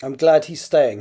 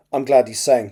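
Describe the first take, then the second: First: "staying" clearly said with its t; corrected reading. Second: "staying" slurred so it sounds like "saying"; misread staying. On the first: Shown as a demonstration. Author rereading a fluffed line, "staying" clearly articulated. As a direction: articulate "staying" so it cannot pass for "saying". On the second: Real, not acted. Author misreading a draft line, "staying" slurred towards "saying". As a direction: swallow the t in "staying". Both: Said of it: "I just obviously read it badly".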